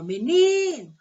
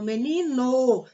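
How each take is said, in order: First: "Menino" with NI loud, high and held; meNIno, the NI stretched out loudly; stress on penultimate syllable. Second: "menino" with the final NO punched and held; stress on last syllable. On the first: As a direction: punch the middle syllable of "Menino". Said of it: "nós temos uma paroxítona". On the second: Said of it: "se o no for a sílaba mais forte". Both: Shown as a demonstration.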